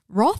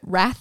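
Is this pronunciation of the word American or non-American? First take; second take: non-American; American. First: The word is said in a non-American way. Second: The word is said in an American way. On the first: "Roth is actually right, I think" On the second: "wrath is very American"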